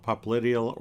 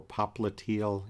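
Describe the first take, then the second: First: Popliteal as pop-LIT-ee-ul; first pronunciation variant. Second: Popliteal as pop-luh-TEE-ul; second pronunciation variant. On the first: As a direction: stress the LIT in popliteal, with a short i. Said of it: "You can call it popliteal or popliteal". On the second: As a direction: stress the TEE in popliteal, with a long ee. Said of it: "Either one is correct". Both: Shown as a demonstration.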